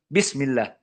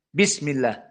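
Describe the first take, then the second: Both takes have the same delivery.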